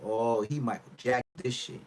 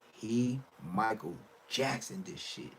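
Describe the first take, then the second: First: Said in the usual way. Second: Slow, softer, broken into separate pieces; slow emphatic repeat. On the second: Real, not acted. Repeating the verdict on his new voice, slow and deliberate. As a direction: spell it out slowly, pausing between words.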